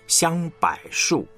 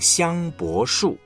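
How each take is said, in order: First: The middle syllable is read the mainland way. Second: The middle syllable is read the local way. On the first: "内地呢说法是香柏树" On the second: "比方我们讲香柏树"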